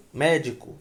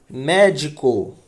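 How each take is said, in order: First: Said in the usual way. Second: "Médico" slow and loud, MÉ leaned on; stressed antepenultimate syllable. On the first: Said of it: "olha aqui". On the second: Shown as a demonstration. Teacher giving a proparoxytone example, heavily stressed and slow. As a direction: stretch out "Médico" with the weight on MÉ. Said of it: "cuja sílaba tônica".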